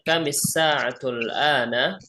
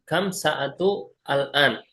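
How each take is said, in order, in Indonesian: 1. Kata-katanya disambung dengan tambahan huruf i setelah kam. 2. Kata-katanya dipisah, tanpa tambahan vokal setelah kam. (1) "Kita ini digabung karena sebelum sin tasydid ada mim berharokat kasrah" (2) "Boleh, boleh, boleh saja"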